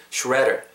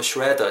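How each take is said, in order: First: "shredder" American style, ending on a curled r; today's r-coloured pronunciation. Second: "shredder" British style, no r at the end; British pronunciation. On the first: Teacher modelling today's version, "shredder" with r-coloured ending. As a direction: say "shredder" non-British, with r-sounds. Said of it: "오늘은 shredder". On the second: Teacher contrasting accents, British "shredder". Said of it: "영국식 하면 shredder 정도로". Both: Shown as a demonstration.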